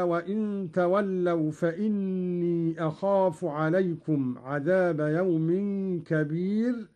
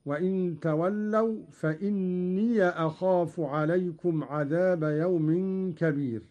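First: Said in the usual way. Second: Short a on the final ي of فإني; Qalun's open ya. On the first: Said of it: "قرأ قالون بفتح ياء". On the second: Shown as a demonstration. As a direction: say فإني as "fa-inniya" before أخاف. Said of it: "بفتح ياء".

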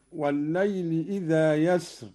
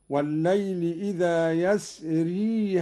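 First: يسر cut short at the r, "yasr"; stopped without ya. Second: يسري ending in long "ee", "yasree"; ya kept when joined. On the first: Teacher citing the verse, يسر without a final ya. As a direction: end يسر on the consonant, no final vowel. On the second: Teacher showing Qalun's joined reading, يسري with long ee. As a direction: carry the ي of يسري into the next word. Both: Shown as a demonstration. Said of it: "ياء يسر وصلا".

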